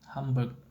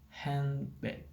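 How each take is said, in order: First: The middle sounds like m directly before b. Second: The middle sounds like n and d before b.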